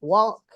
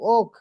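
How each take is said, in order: First: The word starts with a clear w sound. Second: The word starts directly with the vowel. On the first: The speaker calls it wrong. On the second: The speaker calls it right.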